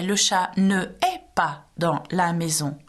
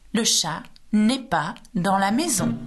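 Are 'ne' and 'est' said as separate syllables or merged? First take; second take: separate; merged. First: Ne and est are said as two separate syllables. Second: Ne and est merge into a single syllable. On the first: The speaker calls it wrong. "we don't say le chat ne est pas dans la maison" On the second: The speaker calls it right. "Drop the E of ne and put an apostrophe. It flows better"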